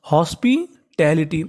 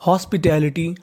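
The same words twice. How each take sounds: First: hospitality slowly, in two separate parts; teacher's slow split of hospitality; sounded out. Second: Said in the usual way. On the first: Shown as a demonstration. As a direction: pause after हॉस्पि, then finish टैलिटी.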